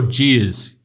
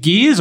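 First: "Gears" with a soft G, like "Jeers". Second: "Gears" with a hard G as in "go". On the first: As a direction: start "Gears" on a j sound. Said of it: "is it Gears or Gears". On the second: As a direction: start "Gears" on a hard g sound. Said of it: "with a hard G". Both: Shown as a demonstration.

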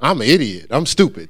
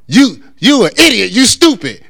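First: Mock-submissive echo at ordinary volume; meek parroting. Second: Higher, louder acted insult; mock cussing out. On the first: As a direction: repeat the insult back without any fight. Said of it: "And then you go". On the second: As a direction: play someone hurling insults at you. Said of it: "somebody's cussing you out and they say".

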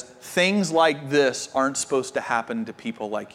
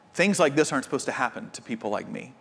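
First: Low, soft retelling of a tearful friend; a mild hint of tears, lower and softer; lightly voiced friend fighting back tears; tearful quote. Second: Fast, soft, hurried inner thought; a soft fast aside to yourself; quick inner thought. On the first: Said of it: "in tears looks at him and says". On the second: Retold or imitated. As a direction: rush it softly, like thinking it to yourself. Voicing everyone's inner thought.

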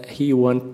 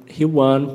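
Both takes have the same delivery.

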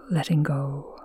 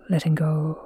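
Both takes have the same delivery.

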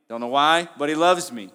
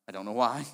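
First: Louder, ringing out with conviction; emphatic declaration. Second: Said in the usual way. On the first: Acted. Preacher proclaiming a believer's confidence, loud and emphatic. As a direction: proclaim it boldly to the room.

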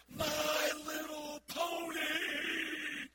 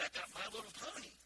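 First: Slow, stretched high shout; drawn-out ecstatic kid's shriek; excited scream. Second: Flat, fast sarcastic "excited"; mock excitement. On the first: Retold or imitated. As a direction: scream it like a thrilled little girl. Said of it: "they screamed at the top of their lungs". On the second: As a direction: act bored while saying it. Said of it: "Boy, I'm excited".

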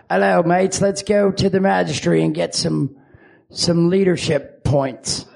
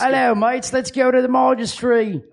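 First: Muddled British-Australian accent; put-on mixed accent, slowing at the end; many different accents. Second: High, put-on British voice; rough British-Australian greeting; attempted British accent. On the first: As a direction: wander between accents, British-ish. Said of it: "many different accents". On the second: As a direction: try a British accent pitched up. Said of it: "what's your British voice sound like". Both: Shown as a demonstration.

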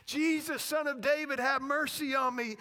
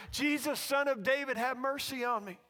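First: Loud, high imitated yell; yelling louder. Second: Loud imitated beggar's plea; calling out. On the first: Blind beggar keeps crying out to Jesus, yelling louder. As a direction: yell the plea over the crowd. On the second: Blind beggar begging Jesus for mercy, calling out. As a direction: call the plea over a crowd. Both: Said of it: "he keeps yelling louder and louder".

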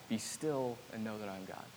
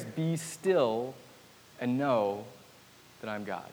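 First: Very soft, run together in one breath; soft quick whisper-like repeat. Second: Each word Be, still, know set apart by long pauses; slow, spaced-out be still. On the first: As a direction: murmur "Be still and know that I'm God" straight through, hushed. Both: Shown as a demonstration. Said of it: "I kept hearing this".

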